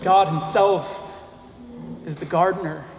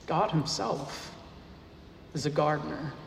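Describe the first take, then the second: First: Said in the usual way. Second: Hushed emphasis. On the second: Acted. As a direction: draw them in by dropping the voice. Pastor repeats key claim, hushed.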